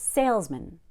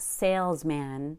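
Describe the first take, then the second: First: The second syllable is a weak, low 'mun'. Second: The second syllable is a full 'man'. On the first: The speaker calls it right. "the word man gets reduced to mun" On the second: The speaker calls it wrong. "So it's not salesman"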